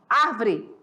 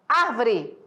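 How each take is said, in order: No difference in how they are said.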